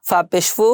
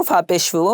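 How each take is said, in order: No difference in how they are said.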